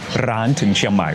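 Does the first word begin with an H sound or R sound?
R sound. The first word begins with an R sound.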